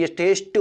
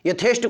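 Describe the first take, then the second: First: यथेष्ट ending in unaspirated ṭ; correct form. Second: यथेष्ट ending in aspirated ṭh; wrong form. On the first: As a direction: say यथेष्ट with a plain ट at the end. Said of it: "ये गलत है, यथेष्ट होता है". (सही यथेष्ट, अंत में ट) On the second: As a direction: say यथेष्ट with a puffed ठ at the end. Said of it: "कोई शब्द ठा नहीं लगता". (यथेष्ट को गलत "यथेष्ठ" बोलें) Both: Shown as a demonstration.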